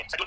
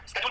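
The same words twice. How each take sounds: First: No k sound in "शेड्यूल"; British pronunciation. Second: "स्केड्यूल" opening with a hard sk; American pronunciation. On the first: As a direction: say "शेड्यूल" as SHED-yool. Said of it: "British में, दोनों सही है". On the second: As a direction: sound the k in "स्केड्यूल". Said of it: "American में". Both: Shown as a demonstration.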